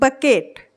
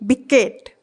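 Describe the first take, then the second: First: The first vowel is an 'uh' sound. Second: The first vowel is an 'ih' sound. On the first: The speaker calls it right. "क्या पढ़ रहे हैं हम बकेट" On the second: The speaker calls it wrong. "ना कि बिकेट"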